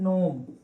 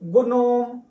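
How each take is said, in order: First: The word starts with an N sound. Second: The word starts with a sounded G. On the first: The speaker calls it right. "ये याद रखेंगे ये नोम लिखा है" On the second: The speaker calls it wrong. "जैसे कोई बच्चे इसको पढ़ेंगे गुनोम"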